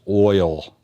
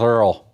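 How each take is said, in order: First: Said in a Northern accent, sounding like oil. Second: Said in a Southern accent, sounding like Earl. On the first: "how we'd say it up north is oil" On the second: "That's how you say it down south, Earl"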